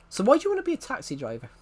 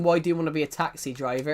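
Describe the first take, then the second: First: Texan accent, higher and fast; quick, pitched-up Texan question. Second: Said in the usual way. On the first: Shown as a demonstration. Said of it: "I was doing a Texan accent". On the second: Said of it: "it suddenly goes into my accent".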